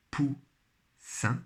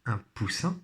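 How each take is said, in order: First: "Poussin" split into pou, pause, ssin; syllable by syllable. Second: Said in the usual way. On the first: Shown as a demonstration. Teacher helping pupils find the syllable, syllable by syllable. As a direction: sound out "Poussin" slowly in two beats. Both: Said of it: "Toujours première syllabe".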